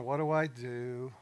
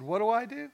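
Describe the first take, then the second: First: Slow, drawn-out question to himself; musing, stalling for effect; pondering. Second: Much higher, louder rhetorical question; raised-pitch rhetorical echo; emphatic echoed question. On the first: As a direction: stretch it out as if thinking it over. Acting out pondering with a pause. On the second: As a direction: throw the question back high and loud. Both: Retold or imitated.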